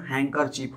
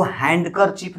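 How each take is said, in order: First: हैंकरचीफ with the D dropped, n running into k; silent D. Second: हैंडकरचीफ with the D pronounced after the n; wrongly sounded D. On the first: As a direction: say "hang-kerchief" for हैंकरचीफ. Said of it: "इसका उच्चारण हैंकरचीफ होता है". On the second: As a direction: say "hand" fully inside हैंडकरचीफ. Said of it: "नहीं बोला जाता है". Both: Shown as a demonstration.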